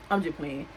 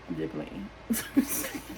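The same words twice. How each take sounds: First: Said in the usual way. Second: Low, slow, laughing through the words. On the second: Real, not acted. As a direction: chuckle it out as you take back the joke. Laughing at own joke.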